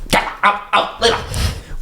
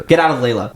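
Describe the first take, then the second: First: High, breathy, drawn-out plea; desperate plea. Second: Said in the usual way. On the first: A narrator's reading. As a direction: stretch it out, high and thin. Desperate repeat of the command.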